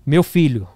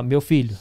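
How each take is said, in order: First: "Meu filho" said louder, with the stress on "Meu"; louder call. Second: Said in the usual way. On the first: Retold or imitated. The prophetess calls him out in the room: louder "Meu filho". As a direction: project "Meu filho" as a firm calling. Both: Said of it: "falou assim, ó".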